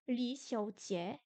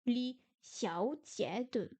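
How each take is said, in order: First: Li xiao jie lentement, sans le de final; wrong reading. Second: Li xiao jie de lentement, avec le de final; corrected reading. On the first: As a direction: lire Li xiao jie en oubliant de. (Li xiao jie, lecture incomplète) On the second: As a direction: corriger en li xiao jie de posément. (li xiao jie de, lecture corrigée) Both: Shown as a demonstration. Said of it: "non, li xiao jie de".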